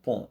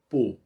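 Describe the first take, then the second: First: The vowel is nasal. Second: The vowel is closed. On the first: "E vamos pensar no nasal" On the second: "Vamos pensar no fechado"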